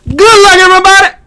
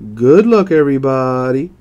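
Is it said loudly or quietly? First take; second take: loudly; quietly. First: It is said loudly. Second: It is said quietly, in a low voice.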